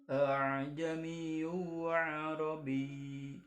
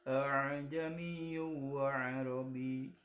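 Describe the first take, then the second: Both takes have the same delivery.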